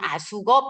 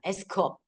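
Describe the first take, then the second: First: It is said with Korean-style vowels, 'a-suk-up'. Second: It is said with English-style vowels, 'ask-up'. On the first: "한국어로 할 때는 아숙업 이렇게 이야기하죠" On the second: "이 영어 발음은 에스크업입니다"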